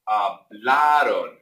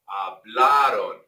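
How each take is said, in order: Both takes have the same delivery.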